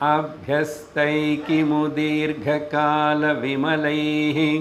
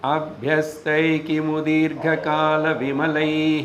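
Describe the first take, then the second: First: The line is recited at a slower pace. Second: The line is recited at a quicker pace.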